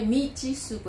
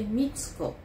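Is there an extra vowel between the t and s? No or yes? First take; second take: yes; no. First: A vowel is inserted between the t and s. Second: The t and s form one cluster. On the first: The speaker calls it wrong. "Não é Mitsuko" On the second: The speaker calls it right. "é Mitsuko"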